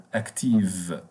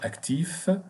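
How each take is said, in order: First: "active" with a voiced v at the end; falling "active", closing on a v sound; feminine V ending. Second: "Active" said as French "actif", ending in f; higher, rising "Active" with a final f sound; masculine F ending. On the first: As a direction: finish "active" on v instead of f. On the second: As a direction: close "Active" on f instead of v. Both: Shown as a demonstration. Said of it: "We replace the F with V E".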